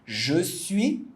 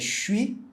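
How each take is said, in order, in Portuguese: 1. A vogal de 'je' é pronunciada por completo. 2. A vogal de 'je' é omitida e fundida.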